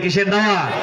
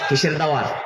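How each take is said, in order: First: The question is said noticeably louder. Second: The question is said at normal volume.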